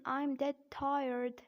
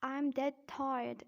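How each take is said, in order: First: Slow American "tired" with a sounded R; slow American-accent demo. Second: Slow British "tired" with no R; slow British-accent demo. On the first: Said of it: "in American accent". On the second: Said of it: "in British accent". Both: Shown as a demonstration.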